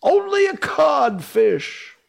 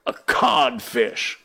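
First: High, loud, slow jeer; mocking shout. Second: Codfish reply. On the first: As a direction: shout it to mock him. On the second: Acted. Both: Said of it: "replied the voice".

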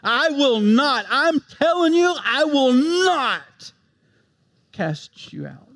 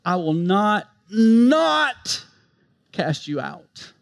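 First: Slow, higher, "not" drawn out; emphatic, building. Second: Slow, with NOT pressed hard; emphatic. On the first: Preacher driving home the promise, slow emphatic build. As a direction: stretch "I will not" slowly and high, then drop on "cast you out". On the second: Preacher stressing Christ's promise, emphatic. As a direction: lean hard on "not" in "I will not, not cast you out". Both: Shown as a demonstration. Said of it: "I mean, it's emphatic".

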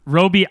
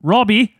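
First: Roby with a long o, Roh-bee. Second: Robbie with a short o, Rob-ee. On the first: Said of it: "that's how they say Robbie in Australian". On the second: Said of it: "I like to think of it as Robbie". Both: Shown as a demonstration.

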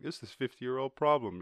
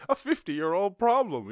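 First: Said in the usual way. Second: Much higher, louder scornful parody; sneering mock echo, pitched up. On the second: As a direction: parrot it back as a silly voice. Sarcastic repeat of humans' claim.

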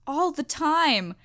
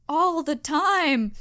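First: ALL stretched out slowly, falling; exasperated slow emphasis on all; slow emphatic repeat. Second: ALL drawn out even slower, falling hard; exasperated final repeat on all; even slower emphatic repeat. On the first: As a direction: drag out all the time in disbelief. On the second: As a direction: hammer all the time once more, slower still. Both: Shown as a demonstration. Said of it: "She cries all the time".

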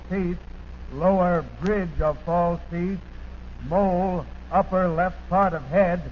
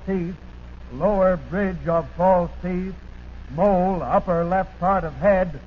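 The two takes are said the same way.

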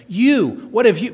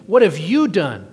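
First: "You" punched higher and louder; "You" hit high and loud, pointed; stress on you. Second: Said in the usual way. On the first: Shown as a demonstration. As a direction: land hard on "You" then "have you". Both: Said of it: "is what is emphasized there".

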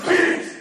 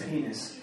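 First: High, loud shout of penis; louder take. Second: Soft, low, under the breath; quiet first take. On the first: Retold or imitated. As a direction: top the last guy by yelling. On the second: Shown as a demonstration. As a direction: start the game barely saying it. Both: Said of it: "the next guy says it louder".

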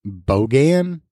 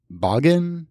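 First: Bogan as BOH-gan, long o, full second vowel; tentative pronunciation. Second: Bogan as BAH-gun, short first vowel, rising; alternative pronunciation. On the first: Host unsure how to say the quiz word, tentatively sounding out Bogan as BOH-gan. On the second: Host unsure how to say the quiz word, trying Bogan as BAH-gun. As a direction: try Bogan as a questioning, higher BAH-gun. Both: Shown as a demonstration. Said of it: "I hope I'm pronouncing it right".

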